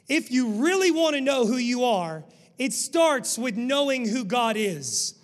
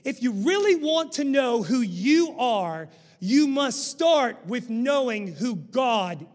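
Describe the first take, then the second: First: It is said at a normal pace. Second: It is said slowly and deeply.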